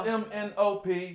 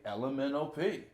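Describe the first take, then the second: First: Each letter is said separately. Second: The letters run together like one word. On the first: The speaker calls it wrong. "It doesn't flow as smoothly" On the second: The speaker calls it right. "That's how I pronounced it when I was coming up. It was elemental"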